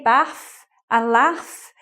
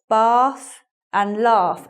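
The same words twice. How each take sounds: First: It is said in a northern English accent. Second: It is said in a southern English accent. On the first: "if I were from the north of the country, I'd say" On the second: "as I say them. I say them in the southern pronunciation"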